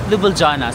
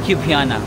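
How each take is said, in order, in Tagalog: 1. Binibigkas ang mga tunog ng L sa pangalan. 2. Tahimik ang mga tunog ng L sa pangalan. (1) "kasi may L naman talaga" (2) "Parang silent lahat ng L"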